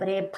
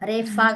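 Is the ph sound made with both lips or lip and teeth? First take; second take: both lips; lip and teeth. First: The ph sound uses both lips, no teeth. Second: The ph sound touches the teeth to the lip. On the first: The speaker calls it right. "Lips, teeth తగలొద్దు" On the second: The speaker calls it wrong. "రేఫా కాదు"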